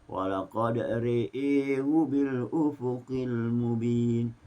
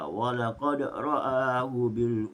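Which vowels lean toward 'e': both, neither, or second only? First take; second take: both; neither. First: Both vowels lean toward an 'e' sound. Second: Both vowels are said with a plain open 'a'. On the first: "dengan Ra dan Hamzah dibaca secara imalah" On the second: "Itulah bacaan Hafs"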